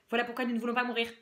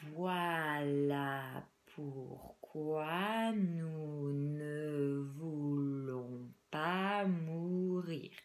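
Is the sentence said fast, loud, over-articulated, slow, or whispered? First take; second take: fast; slow. First: The sentence is spoken very quickly. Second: The sentence is spoken very slowly. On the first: "Je vais les dire très très vite" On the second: "On va les dire très lentement"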